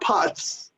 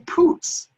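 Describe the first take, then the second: First: The vowel is a short uh sound. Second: The vowel is a long oo sound. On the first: The speaker calls it wrong. "not Putz" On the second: The speaker calls it right. "it's J J Poots"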